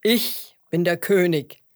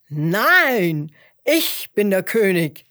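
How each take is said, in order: First: Loud, self-assured lion; proud declaration. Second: Loud lion's protest, long-drawn NEIN; calling out. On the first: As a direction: declare your rank proudly and loudly. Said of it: "erklärte der Löwe stolz". (stolz verkündender Löwe) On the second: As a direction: shout down your rival as the lion. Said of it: "rief der Löwe". (lautes, widersprechendes Rufen) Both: A narrator's reading.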